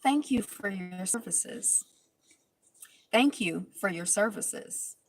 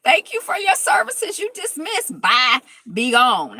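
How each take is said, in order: First: Slow, softer, cool dismissal of a cast member; imitating Shawnee. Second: High and loud triumphant send-off; gleeful dismissal. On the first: Recap host mimics Shawnee's icy goodbye, slow and soft. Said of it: "my favorite side of Shawnee was when she was like". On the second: Real, not acted. Host gleefully echoing Shawnee's dismissal, high and loud. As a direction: belt it out like cheering a win. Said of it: "I was like".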